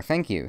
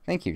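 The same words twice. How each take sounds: First: Lightly voiced character, a bit louder; John's reply. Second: Much higher-pitched thank-you; she-voiced thanks. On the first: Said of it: "said John". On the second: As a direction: say it high, as her character. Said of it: "she said". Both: A narrator's reading.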